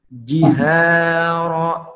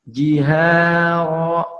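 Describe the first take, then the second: The two takes are said the same way.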